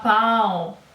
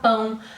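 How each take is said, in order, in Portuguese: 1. A vogal é oral, sem som nasal. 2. A vogal é nasal, como em português. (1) "Ele sempre vai falar pau" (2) "ele não consegue falar pão"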